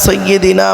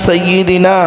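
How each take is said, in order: The two takes are said the same way.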